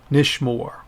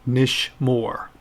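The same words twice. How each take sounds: First: Said in the usual way. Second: "Nish Moore" slowly, in two beats; pronounced for repetition. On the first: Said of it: "And one more time". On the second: Shown as a demonstration. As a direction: model "Nish Moore" with separated syllables. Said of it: "pronounce them after me".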